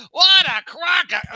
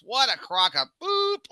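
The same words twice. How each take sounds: First: Very high, loud, slow yell; the brother hollering from the back of the theater; loud heckling shout. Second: High, slow scornful heckle; a heckler's scoffing grumble; mock scoff. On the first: Retold or imitated. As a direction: bellow it across the theater. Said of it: "like, as loud as you can be". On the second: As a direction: sneer it from the back row. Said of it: "my brother in the back goes".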